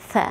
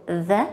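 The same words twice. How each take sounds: First: "th" as an airy voiceless th with a short vowel after; isolated voiceless "th"; voiceless TH sound. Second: "the" as a buzzing voiced th; isolated voiced th in "the"; voiced TH sound. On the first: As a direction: sound out "th" without voicing the consonant. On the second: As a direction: sound out "the" alone with the voice on. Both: Shown as a demonstration. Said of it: "two sounds".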